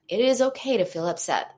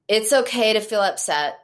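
First: The voice sounds warm, gentle and soothing. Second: The voice sounds cold and not soothing. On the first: The speaker calls it right. "This is what soothing sounds like" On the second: The speaker calls it wrong. "Not comforting, not soothing, not helpful"

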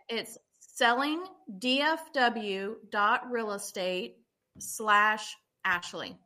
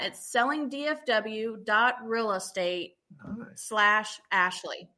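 First: It is said slowly. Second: It is said at normal speed.

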